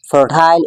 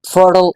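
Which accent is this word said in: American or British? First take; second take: British; American. First: The word is said in a British accent. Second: The word is said in an American accent. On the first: "but fertile in British English" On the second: "in American English"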